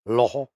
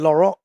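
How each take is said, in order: First: The name is said with a French accent. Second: The name is said with an English accent.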